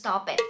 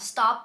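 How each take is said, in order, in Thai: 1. คำนี้ออกเสียงเพิ่มพยางค์ที่สองค่ะ 2. คำนี้ออกเสียงเป็นหนึ่งพยางค์ค่ะ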